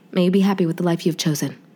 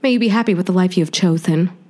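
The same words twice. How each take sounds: First: It is said in a serious, sincere way. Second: It is said in a joking, unserious way.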